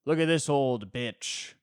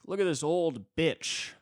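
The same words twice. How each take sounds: First: Jeering guy, louder. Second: Jeering guy. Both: Retold or imitated. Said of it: "some guy's like".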